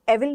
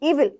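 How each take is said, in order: First: The word begins with a short 'eh' vowel. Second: The word begins with a long 'ee' vowel. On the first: The speaker calls it wrong. "एविल नहीं" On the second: The speaker calls it right.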